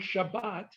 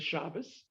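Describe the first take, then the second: First: It ends with a T sound, Sephardic style. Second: It ends with an S sound, Ashkenazi style.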